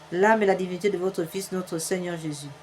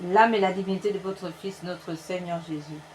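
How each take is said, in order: Both takes have the same delivery.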